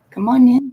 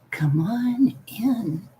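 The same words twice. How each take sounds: First: Big, high, loud call; loud higher hostess call; loud welcome. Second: Slow, drawn-out spooky whisper; whispered spooky invitation; creepy whisper. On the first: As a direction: boom it out to the whole room. Calling guests into the call. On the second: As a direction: beckon them in, hushed and eerie. Spooky greeting to someone joining call. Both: Pretend.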